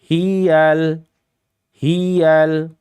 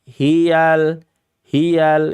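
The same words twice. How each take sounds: First: The first syllable is pressed and raised in pitch. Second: The first syllable is light, without extra pressure. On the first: The speaker calls it wrong. "Kalau hi-nya iramanya dinaikkan, maka ya-nya menjadi tasydid" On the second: The speaker calls it right. "Tidak ada penekanan pada huruf ha"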